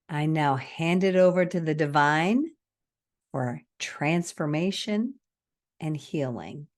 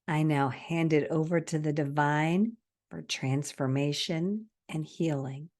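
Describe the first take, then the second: First: It is spoken slowly. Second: It is spoken at a natural speed. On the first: "I'm going to go slow" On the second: "in a more natural speed"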